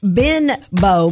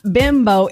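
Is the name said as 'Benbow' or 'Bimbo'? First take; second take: Benbow; Bimbo. First: The name sounds like 'benbow', with an n. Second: The name sounds like 'bimbo', with an m. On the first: The speaker calls it right. "It's Bimbo. B-E-N-B-O-W" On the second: The speaker calls it wrong. "It's not Bimbo"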